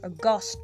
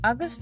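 First: The stress is on the second syllable. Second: The stress is on the first syllable. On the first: Something rare and unexpected. "the gust is the stressed word" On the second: The name of the eighth month. "August is the eighth month of the year"

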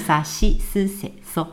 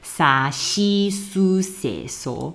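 First: The middle vowels are weakened and said lightly. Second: Every vowel is pronounced fully and clearly. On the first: The speaker calls it right. "所以要念成沙西苏塞索" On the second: The speaker calls it wrong. "如果你真的根据罗马拼音去念出来的话，它的发音会有点奇怪"

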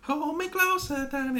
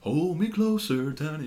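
First: The voice is high-pitched. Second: The voice is low and deep. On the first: This is how the singer sounded in the past. "instead of" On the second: This is how the singer sounds now. "they sing a lot deeper now"

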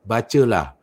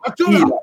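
First: It is said flatly, without force. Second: It is said fiercely, as a command.

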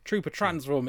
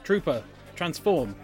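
First: The two words run together without a pause. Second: A long pause separates the two words. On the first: The speaker calls it right. "Instead of saying" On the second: The speaker calls it wrong. "it's "Trooper transform.""

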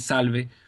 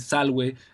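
First: It is said in Italian ecclesiastical Latin pronunciation. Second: It is said in restored classical Latin pronunciation. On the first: "Italian pronunciation, ecclesiastical pronunciation would be salve" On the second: "Restore pronunciation would be salve"

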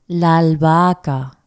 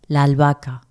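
First: It is said slowly. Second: It is said at normal speed.

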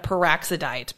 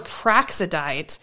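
First: An extra vowel follows the first consonant. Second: The first two consonants are said together. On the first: The speaker calls it wrong. "Psycho Goreman says it kind of peroxidite" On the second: The speaker calls it right. "It's more praxidite. And it doesn't have that beginning part of it"

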